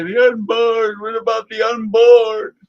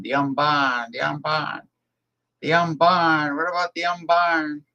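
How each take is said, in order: First: High, loud pleading mock cry; loud mock plea for the unborn; mocking old zealot. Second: Mild New England accent imitation; a light New England accent on the old man's plea; lightly done New England accent. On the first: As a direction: ham up the pious old extremist. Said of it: "he used to say". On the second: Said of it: "with the New England accent".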